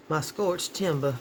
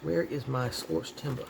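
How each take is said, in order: First: Slower, drawn-out Southern drawl. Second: Light Southern drawl with dropped r's. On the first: Shown as a demonstration. Crafter showing off to viewers, drawn-out Southern drawl. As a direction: lean into the Southern drawl, dropping the r's. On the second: Real, not acted. Crafter hunting for supplies, light Southern drawl. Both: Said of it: "there's some of my southern drawl".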